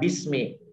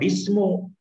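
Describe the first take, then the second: First: The word ends in an i vowel. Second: The word ends in an u vowel. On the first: The speaker calls it right. "Harus dibaca bismi" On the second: The speaker calls it wrong. "Tidak boleh dibaca bismu"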